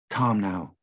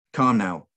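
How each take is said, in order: First: Gentle entreaty. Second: Louder, gruff, firm order; gruff command. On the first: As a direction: coax her gently to be calm. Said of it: "one of them entreated". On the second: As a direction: bark it as a stern instruction. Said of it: "a gruffer voice instructed". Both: Acted.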